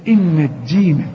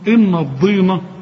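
First: The d sound is light and plain. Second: The d sound is heavy and emphatic. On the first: The speaker calls it right. "شوف الدال دي" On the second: The speaker calls it wrong. "مش ان الضينة"

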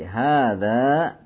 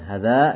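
First: The first vowel is long. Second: The first vowel is short. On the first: The speaker calls it right. "tapi hadza tajirun gitu" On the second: The speaker calls it wrong. "kurang panjang sedikit, bukan hadza gitu ya"

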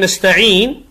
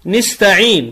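First: The first n carries an a vowel. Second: The first n carries an i vowel. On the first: The speaker calls it right. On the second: The speaker calls it wrong.

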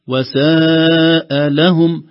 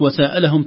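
First: A slight break and stress mark the second word. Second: The two words run together without any break. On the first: It means something evil for them. The speaker calls it right. "النطق التجويد الصحيح وساء لهم، الفصل ما بين كلمة ساء وكلمة لهم بنبرة يسيرة من حرف اللام" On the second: It suggests asking or questioning them. The speaker calls it wrong. "تعطيك معنى آخر من المساءلة"

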